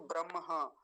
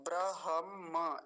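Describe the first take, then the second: First: ब्रह्म as bram-haa, m before h; mistaken pronunciation. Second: ब्रह्म said slowly as bra-ham-maa, h before m; correct pronunciation. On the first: Teacher showing students what to avoid, mistaken pronunciation. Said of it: "ना कि". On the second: Teacher modelling the right form for students, correct pronunciation. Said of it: "ऐसा बोलेंगे". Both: Shown as a demonstration.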